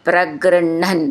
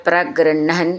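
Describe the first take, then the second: No difference in how they are said.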